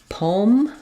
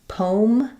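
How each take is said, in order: No difference in how they are said.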